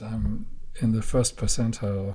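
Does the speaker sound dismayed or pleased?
dismayed. It is said in a dismayed, upset tone. Ninety-nine percent scored better. "oh my God"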